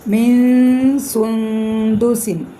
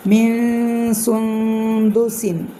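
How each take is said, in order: First: Slow, louder recited chant with the nasal n hidden; Quranic recitation with ikhfa. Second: Slow recited chant with a hidden nasal; Quranic recitation with ikhfa. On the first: Teacher reciting for students, slow tajweed chant. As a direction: chant it slowly, hiding the n of മിൻ into the s. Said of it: "സീനായതുകൊണ്ട് ഇഖ്ഫാ". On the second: Teacher reciting again for students, slow chant. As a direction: chant slowly, the n of മിൻ hidden. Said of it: "ഇഖ്ഫാണ്". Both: Shown as a demonstration.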